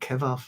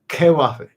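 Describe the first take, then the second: First: The second consonant is a V sound. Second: The second consonant is a W sound. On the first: "might be a um, a V" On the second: "that W"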